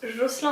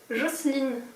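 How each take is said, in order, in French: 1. Le nom est prononcé à la française. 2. Le nom est prononcé à l'anglaise. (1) "son prénom se prononce Jocelyn en France" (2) "son prénom se prononce Jocelyne aux États-Unis"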